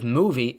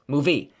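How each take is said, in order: First: The stress is on the first syllable. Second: The stress is on the second syllable.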